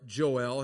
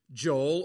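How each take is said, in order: First: "Joel" split as "Jo-EL"; "Joel" pronounced "joh-ell"; two-syllable Joel. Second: "Joel" run together as one syllable; "Joel" with no break between the vowels. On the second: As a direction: say "Joel" as "Jole", rhyming with coal. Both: Shown as a demonstration. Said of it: "we are prone to say".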